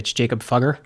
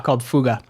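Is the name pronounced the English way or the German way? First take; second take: English; German. First: The name is read out in English style. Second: The name is pronounced in German style. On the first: "is the way it's actually spelt" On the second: "the German pronunciation is"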